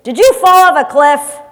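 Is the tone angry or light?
angry. It is said in an angry tone.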